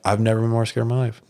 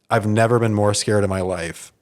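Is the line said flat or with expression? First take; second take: flat; expression. First: It is said in a flat, lifeless voice. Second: It is said with some lively expression.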